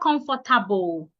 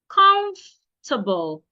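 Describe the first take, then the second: First: The middle 'for' syllable is fully pronounced. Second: The middle 'for' syllable is dropped. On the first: The speaker calls it wrong. "It's not comfortable" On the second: The speaker calls it right. "The O and the R should not be said"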